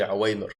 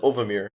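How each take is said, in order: First: The name is said with a w sound. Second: The name is said with a v sound. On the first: It is the name's actual pronunciation. The speaker calls it right. "later realized his name is actually Awamir" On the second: It follows the spelling of the name. The speaker calls it wrong. "at first, I used to pronounce it as Ovamir, because that's how he spelt it"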